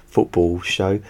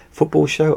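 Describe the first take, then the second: First: Chuckling through the slip; laughing. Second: High, louder amused question; baffled by your own words; incredulous. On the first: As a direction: laugh at your own mistake. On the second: Disbelief at own slip. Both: Real, not acted.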